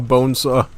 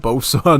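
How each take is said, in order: First: The word is said with an n, like bone saw. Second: The word is said as two syllables without n. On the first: The speaker calls it wrong. "not a bone saw" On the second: The speaker calls it right. "I actually said it correctly this time"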